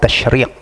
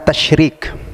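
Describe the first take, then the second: First: The last consonant is a deep back q sound. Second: The last consonant is a front k sound. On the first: The speaker calls it right. "pakai qaf ya, pakai qaf" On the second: The speaker calls it wrong. "kalau antum katakan tasyrik pakai kaf"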